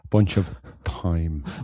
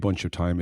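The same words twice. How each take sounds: First: The last word starts with an exaggerated th sound. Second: The last word starts with a plain t sound. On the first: It means the herb. The speaker calls it right. "my over pronunciation of my th is time" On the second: It means time as on a clock. The speaker calls it wrong. "it's not a bunch of time"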